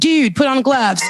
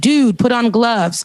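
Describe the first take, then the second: First: It is acted out, imitating the woman's voice. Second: It is read plainly in the speaker's own voice.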